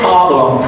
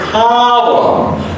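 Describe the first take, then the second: First: The first vowel is short and not stretched. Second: The first vowel is stretched with higher pitch. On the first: The speaker calls it wrong. "Don't say problem" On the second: The speaker calls it right. "you have to stretch the O as a higher pitch"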